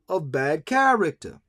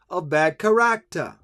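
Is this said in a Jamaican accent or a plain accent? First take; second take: plain; Jamaican. First: It is said in the speaker's ordinary accent. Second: It is said in a Jamaican accent.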